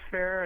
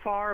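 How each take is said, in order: First: The name is said with an 'air' vowel. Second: The name is said with an 'ar' vowel. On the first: This is how the name is said down here. "but down here it's Fair" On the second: This is how the name is said up north. "up north, they pronounce it Farr"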